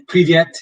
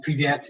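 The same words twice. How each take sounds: First: Привет, casual and quick; Russian privet. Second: Привет, dropped casually to a friend; quiet casual greeting; Russian privet. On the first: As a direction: say привет as "pree-VYET", stress on the end. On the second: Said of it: "if you're seeing your friends". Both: Shown as a demonstration.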